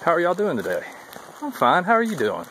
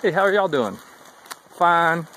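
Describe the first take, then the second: First: Higher, cheery southern greeting and reply; lightly acted friendly southern hikers; friendly southern exchange. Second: Higher greeting met with a flat "Fine"; mock curt northern answer; curt one-word reply. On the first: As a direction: sing out the trail greeting. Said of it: "just a ritual down south". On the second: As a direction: act the northern hikers' brush-off. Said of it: "That's all I get".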